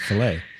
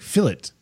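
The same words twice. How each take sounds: First: It is pronounced in a non-British way. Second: It is pronounced in a British way. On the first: The speaker calls it right. "instead of fillet" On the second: The speaker calls it wrong. "you say like fillet"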